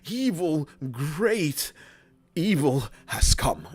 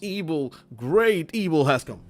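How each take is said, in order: First: It is slow, with dramatic pauses. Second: It is rushed, with no dramatic pauses.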